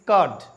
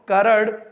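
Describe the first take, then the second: First: The r sound is silent. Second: The r sound is pronounced. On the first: The speaker calls it right. "It is कर्ड" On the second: The speaker calls it wrong. "It is not करड"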